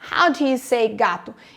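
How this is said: How and gato are stressed; do you is weak.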